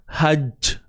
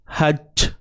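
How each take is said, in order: No difference in how they are said.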